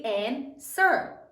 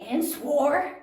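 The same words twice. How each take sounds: First: "and sir" said slowly, the W silent; two slow syllables, "and sir", ending in "er"; correct pronunciation. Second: "swore" said with a sounded W, like "swore"; wrong pronunciation. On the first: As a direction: say answer as "and sir", no W sound. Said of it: "We say". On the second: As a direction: mispronounce answer as "and swore", W fully voiced. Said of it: "We don't say". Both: Shown as a demonstration.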